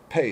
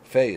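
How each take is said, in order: First: It begins with a hard stop p sound. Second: It begins with a soft fricative f sound. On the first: "pe is hard" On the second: "Fe is soft"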